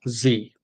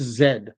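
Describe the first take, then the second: First: The letter is said the American way. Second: The letter is said the Canadian way. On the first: "In American, it's Z" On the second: "in Canada, the last letter of the alphabet is Z"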